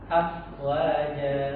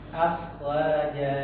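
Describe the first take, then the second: Both takes have the same delivery.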